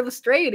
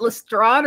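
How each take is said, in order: First: Lestrade ending like "strayed". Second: Lestrade ending in an open "ah" plus d; Lestrade as "le-STRAHD". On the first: Still unsure of the name, Lestrade said "le-STRAYED". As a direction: say Lestrade with a long "ay". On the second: Still unsure of the name, Lestrade said "le-STRAHD". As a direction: say Lestrade like "façade". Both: Shown as a demonstration. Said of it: "is it Lestrade or Lestrade".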